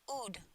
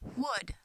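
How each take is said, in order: First: The word starts without any W sound. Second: The word starts with a clear W sound. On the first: The speaker calls it wrong. "they omit it altogether if it starts the word" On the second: The speaker calls it right. "they should feel the breath on their hand"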